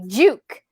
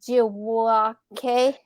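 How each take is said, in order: First: The name sounds like 'juke' in jukebox. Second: The name does not sound like 'juke'. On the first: This is how the name is really pronounced. The speaker calls it right. "It's pronounced J U K E, Juke, like a jukebox" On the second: This is how other people commonly say the name. The speaker calls it wrong. "people say April Tribe, Jiwake"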